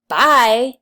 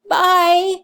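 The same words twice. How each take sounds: First: It is said in an angry, dismissive tone. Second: It is said in a sad, wistful tone. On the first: The speaker is glad the other person is leaving. "like you're really happy to see the person go and you're mad at them" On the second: The speaker is sorry the other person is leaving. "like you're really sad to see them leave"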